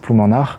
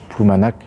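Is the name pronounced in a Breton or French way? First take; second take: Breton; French. First: The name is said with a Breton pronunciation. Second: The name is said with a French pronunciation. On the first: The speaker calls it right. "la bonne prononciation c'est Ploumanard" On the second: The speaker calls it wrong. "comme on prononce en français"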